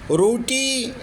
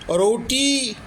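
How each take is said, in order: No difference in how they are said.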